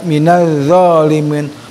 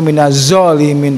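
First: The consonant is emphatic with the tongue out. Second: The consonant is a plain z sound. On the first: The speaker calls it right. "Jadi ada lidah yang dikeluarkan sedikit. Itu pengucapan huruf zo" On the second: The speaker calls it wrong.

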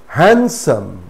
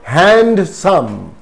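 First: No 'd' sound is pronounced in the word. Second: A 'd' sound is pronounced in the word. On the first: The speaker calls it right. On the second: The speaker calls it wrong.

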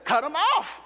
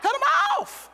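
First: The phrase is said at normal volume. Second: The phrase is said at raised volume. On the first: "What did I just say?" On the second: "Say it louder"

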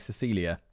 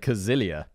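First: The name begins with a soft S sound. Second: The name begins with a hard K sound. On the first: The speaker calls it right. "apparently you pronounce it like Cecilia" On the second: The speaker calls it wrong. "it's spelt like Cazilia"

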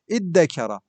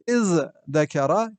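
First: The z is dropped and the d is doubled. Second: A z sound comes before the d.

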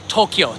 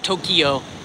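First: The word is said with two syllables. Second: The word is said with three syllables. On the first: The speaker calls it right. "the city's pronounced Tokyo, two syllables" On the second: The speaker calls it wrong. "not Tokyo"

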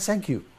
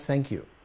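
First: Thank begins with a consonant other than th. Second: Thank begins with a th sound. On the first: The speaker calls it wrong. "مفيش حاجه اسمها ثانك يو" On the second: The speaker calls it right. "في حاجه اسمها ثانك يو"

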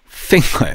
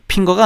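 First: The word begins with an f sound. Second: The word begins with a p-like sound. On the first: The speaker calls it right. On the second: The speaker calls it wrong. "핑거가 아니라"

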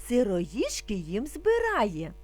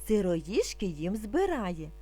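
No difference in how they are said.

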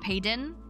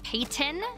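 First: The middle consonant sounds like a D. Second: The middle consonant is a hard, crisp T. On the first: "people put like a D sound to it" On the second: "which is close"

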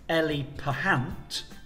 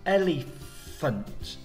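First: The middle is said with a p sound. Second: The middle is said with an f sound. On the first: The speaker calls it wrong. "We don't say elepahant" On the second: The speaker calls it right. "it's elephant"

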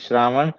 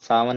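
First: It is said in the full, pure Hindi form. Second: It is said in the local, simplified form. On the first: This is the standard form. The speaker calls it right. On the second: This is the colloquial form. The speaker calls it wrong. "सावन नहीं होता ये"

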